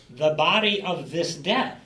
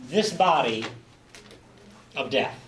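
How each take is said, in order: First: "death" lifted and louder at the end; stress on DEATH. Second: "This body" pressed louder, "of death" lighter; stress on THIS BODY. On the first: Teacher contrasting King James reading: weight on "death". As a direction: land the weight on "death" with a rise. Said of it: "Emphasis on the death". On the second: Teacher stressing the ESV phrase: "This body" pushed. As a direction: lean on "This body", let "of death" drop. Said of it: "puts emphasis on the physical body". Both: Shown as a demonstration.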